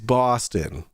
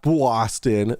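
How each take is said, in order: First: It is said in a Boston accent. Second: It is said in a New York accent. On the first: The speaker calls it right. "is Boston" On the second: The speaker calls it wrong. "not Boston. That's New York"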